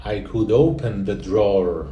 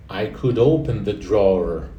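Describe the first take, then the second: No difference in how they are said.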